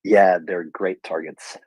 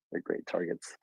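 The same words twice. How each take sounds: First: Said in the usual way. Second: Breathy whispered repeat; whispered aside. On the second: Real, not acted. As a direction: drop to a whisper for the echo. Repeats line, then whispers it.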